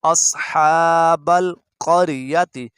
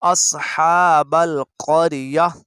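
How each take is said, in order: First: अस्हाबल क़रियति run straight through, the full ending क़रियति kept; recited slowly, क़रियति voiced in full; without the stop. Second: अस्हाबल क़रिया with the ending cut to क़रिया, stopping there; slow recitation ending on a firm stop; obligatory stop. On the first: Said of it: "यहाँ पे आपने वक्फ़े लाजिम". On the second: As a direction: pause on क़रिया as at a waqf. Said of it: "वक्फ़ लाजिम ज़रूर करना है". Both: Shown as a demonstration.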